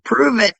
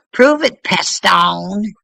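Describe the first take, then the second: First: Firm, higher "Prove it" with a falling end; "Prove it" stated hard, falling; challenge. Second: "Prove it" yelled much higher and louder, rising; "Prove it" shouted high with a rising end; loud challenge. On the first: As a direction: demand proof flatly. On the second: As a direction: throw it at them as a dare. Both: Real, not acted. Challenging a critic.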